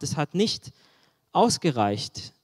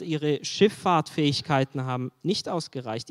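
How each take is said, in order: First: „nicht“ lifted, „ausgereicht“ drawn out slowly and falling; slow stress on ausgereicht. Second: Said in the usual way. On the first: Shown as a demonstration. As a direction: let „ausgereicht“ sink slowly and heavily. („ausgereicht“ langsam und schwer betont)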